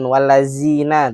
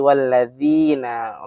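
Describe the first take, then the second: First: The middle consonant is a plain z sound. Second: The middle consonant is a soft th sound. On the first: The speaker calls it wrong. "Bukan wallazina" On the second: The speaker calls it right. "tapi walladzina. Lidahnya harus keluar sedikit dan menyentuh gigi depan kita"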